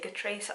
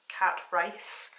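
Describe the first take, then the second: First: The name is not said as 'cat rice'. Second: The name is said as 'cat rice'.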